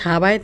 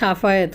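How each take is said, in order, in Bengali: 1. মাঝের ব্যঞ্জনটি b ধ্বনি। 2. মাঝের ব্যঞ্জনটি f ধ্বনি। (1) "হোলারা বলে সাবায়েত" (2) "ফোলার নাম সাফায়েত"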